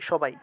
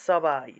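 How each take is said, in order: First: The word begins with an sh sound. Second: The word begins with an s sound. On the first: This is the everyday Bengali pronunciation. The speaker calls it wrong. "বাংলায় সবাই বলি" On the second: This is the Sanskrit pronunciation. The speaker calls it right. "উচ্চারণটা হবে সবাই"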